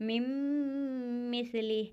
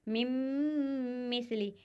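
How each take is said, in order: No difference in how they are said.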